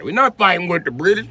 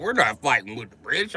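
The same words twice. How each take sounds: First: Higher, louder scared-colonist quote, lightly voiced; mock scared colonist. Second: Said in the usual way. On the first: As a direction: ham up a panicky colonist, "not" pushed up. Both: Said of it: "They're like".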